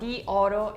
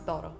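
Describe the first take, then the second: First: Both vowels are pronounced as separate syllables. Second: The first vowel is dropped, joining the words. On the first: The speaker calls it wrong. "it doesn't sound really natural" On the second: The speaker calls it right. "you just take away the I"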